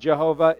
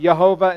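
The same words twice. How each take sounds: First: The name begins with a J sound. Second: The name begins with a Y sound. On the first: "instead of Jehovah" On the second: "the J should be pronounced as a Y"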